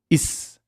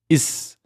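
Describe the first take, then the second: No difference in how they are said.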